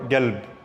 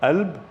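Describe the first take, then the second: First: The word begins with a hard g sound. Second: The word begins with a glottal stop. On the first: "or galb" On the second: "it could be pronounced as alb with a a"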